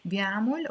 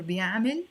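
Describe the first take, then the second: First: First بيعمل ending in -mol; o in the last syllable of بيعمل. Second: بيعمل ending in -mil; i in the last syllable of بيعمل; alternative pronunciation. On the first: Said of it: "with the O". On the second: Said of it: "as well". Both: Shown as a demonstration.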